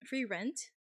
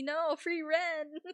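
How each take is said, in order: First: Said in the usual way. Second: High, slowly drawn out through a laugh. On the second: Shown as a demonstration. Streamer mishears Frieren as free rent, laughing. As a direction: savour free rent like a joke. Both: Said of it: "In this economy".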